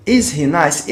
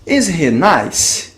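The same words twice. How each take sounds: First: Said in the usual way. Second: Slow, careful model sentence; very slow, deliberate teacher delivery; slow teaching demo. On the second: Shown as a demonstration. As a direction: spell it out slowly for the class. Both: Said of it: "Então vamos ver algum exemplo".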